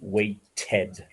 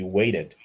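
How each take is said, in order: First: The word is said in a British way. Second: The word is said in an American way. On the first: "some uh, dialects within the United Kingdom would say weighted" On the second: "in some parts of America ... it would be weighted"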